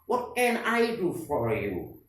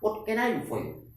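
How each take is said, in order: First: The sentence is spoken slowly. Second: The sentence is spoken at moderate speed. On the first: "Tiga kali yang pertama dibaca pelan" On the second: "tiga kali yang kedua ini agak cepat"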